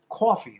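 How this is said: The first vowel is a long New York 'aw'. "C A W F E E. Coffee. That's how you say it"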